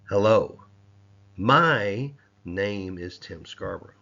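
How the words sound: The word my is stressed. The name belongs to the speaker alone. "let's move on to the next word... I showed possessiveness in that"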